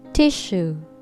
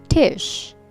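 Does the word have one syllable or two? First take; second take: two; one. First: The word is said with two syllables. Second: The word is said with one syllable. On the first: The speaker calls it right. "Two syllable word" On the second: The speaker calls it wrong. "Not tish"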